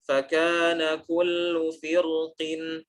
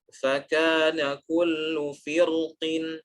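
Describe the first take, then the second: The two takes are said the same way.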